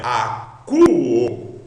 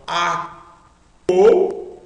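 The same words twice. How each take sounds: First: "a, cu, o" with a long, loud "cu" as in "coo"; corrected U pronunciation. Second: "a, o" read with an O sound where U belongs, the "o" loud; mistaken vowel reading. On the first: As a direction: read "a, cu, o" stressing a drawn-out U in "cu". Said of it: "ômicron com Y tem som de U". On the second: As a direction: misread it as "a, o", with O instead of U. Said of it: "não". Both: Shown as a demonstration.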